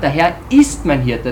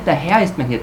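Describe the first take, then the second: First: The word ist carries the main stress. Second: The word Herr carries the main stress. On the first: It holds true now and in the future. "Das ist jetzt Gegenwart und Zukunft" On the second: The Lord, not one's own wishes, is the guide. "ich lasse mich nicht leiten von meinen Bedürfnissen"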